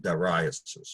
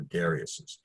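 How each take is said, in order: First: "Dariuses" said duh-RYE-us-es, stress on RYE; "Dariuses" stressed on the second syllable, RYE. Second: "Dariuses" said DAIR-ee-us-es, stress on DAIR; "Dariuses" beginning like "dairy", then us-es. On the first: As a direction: say "Dariuses" with a long I in the middle. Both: Shown as a demonstration. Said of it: "however we pronounce that".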